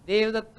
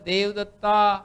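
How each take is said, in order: First: The final vowel is said closed. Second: The final vowel is said open.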